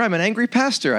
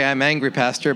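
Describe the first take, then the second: First: "I'm an angry pastor" said as one phrase, ANGRY lifted high; angry pastor, run together. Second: "I'm angry, pastor" with a clear break after ANGRY; pause after angry. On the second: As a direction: stop on ANGRY, then add "pastor" separately. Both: Shown as a demonstration. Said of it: "No, I didn't say".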